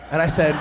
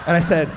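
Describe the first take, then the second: No difference in how they are said.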